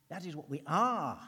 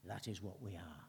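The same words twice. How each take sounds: First: Loud declaration. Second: A calm, inward reflection; quiet, lower statement. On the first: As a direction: proclaim "That is what we are" louder, punching "are". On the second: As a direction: say "That is what we are" lower and much softer, inward. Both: Shown as a demonstration. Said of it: "Make it personal".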